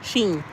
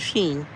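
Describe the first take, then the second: First: The name is said as 'sheen'. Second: The same.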